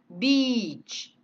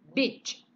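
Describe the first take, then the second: First: Beach with a long stretched ee; the correct long vowel in beach; long i demo. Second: Beach said like bitch with a short i; the wrong, short vowel in beach; short i demo. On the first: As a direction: draw out the ee in beach. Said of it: "Kalau yang ini pantai". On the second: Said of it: "ini bacanya pendek". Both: Shown as a demonstration.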